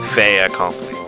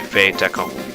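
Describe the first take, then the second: First: No T sound links the two words. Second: A T sound links the two words. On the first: The speaker calls it wrong. "the French don't like to say, wouldn't like to say" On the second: The speaker calls it right. "They would say"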